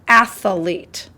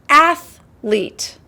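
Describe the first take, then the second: First: The word is said with an extra sound added. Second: The word is said without any extra sound. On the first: The speaker calls it wrong. "They added an extra, a little bit of extra in there" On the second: The speaker calls it right. "It's athlete"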